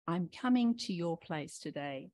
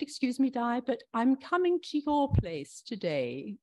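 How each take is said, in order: First: Said in the usual way. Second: Badly faked British accent, pitched up; attempted British Queen. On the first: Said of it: "imagine if Jesus said". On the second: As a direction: play the Queen in a mock British voice. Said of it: "I don't, can't do a British accent".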